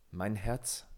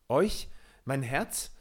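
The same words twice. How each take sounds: First: Said in the usual way. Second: Recoil, crying out in terror; horrified cry. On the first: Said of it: "sprach Peter". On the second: A narrator's reading. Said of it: "schrie Peter mit Entsetzen". (Peter schreit entsetzt, höher und lauter)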